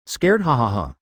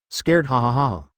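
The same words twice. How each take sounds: First: Said in the usual way. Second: Booming evil laugh; loud villain laugh. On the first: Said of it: "laughed out loud". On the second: A narrator's reading. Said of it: "laughed loudly".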